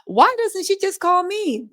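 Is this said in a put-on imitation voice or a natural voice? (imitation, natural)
imitation. It is read in a put-on imitation voice.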